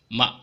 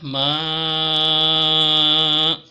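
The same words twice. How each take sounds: First: The vowel is short and clipped. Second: The vowel is held moderately long. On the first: "maka ini dibaca pendek saja" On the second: "ini contohnya ma"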